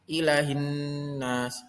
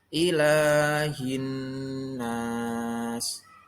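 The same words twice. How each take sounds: First: The vowel after the l is short. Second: The vowel after the l is held long. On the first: The speaker calls it wrong. "Tidak boleh ilahin nas. Salah" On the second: The speaker calls it right. "Yang betul yaitu ilahin nas"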